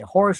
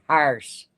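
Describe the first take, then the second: First: The vowel sounds like the 'or' in 'for'. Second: The vowel sounds like the 'ar' in 'car'.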